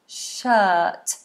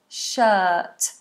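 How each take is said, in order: No difference in how they are said.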